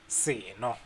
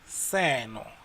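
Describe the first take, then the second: First: The word is said on a lower pitch. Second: The word is said on a higher pitch. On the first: A drink. "Seno means drink" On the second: This thing. "it goes higher there for seno"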